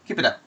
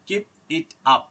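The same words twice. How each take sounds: First: The consonants link into the following vowels. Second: The words are said separately. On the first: The speaker calls it right. "it would be pronounce like" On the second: The speaker calls it wrong. "এইরকম না"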